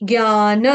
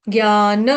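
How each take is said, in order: No difference in how they are said.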